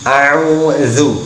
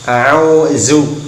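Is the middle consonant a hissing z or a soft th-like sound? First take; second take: soft th; hissing z. First: The middle consonant is a soft, non-hissing th-like sound. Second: The middle consonant is a hissing z-like sound. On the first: The speaker calls it right. "Contoh dalam hafal ta'ud" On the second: The speaker calls it wrong. "Jangan berdesisnya seperti za. Jangan a'udzu"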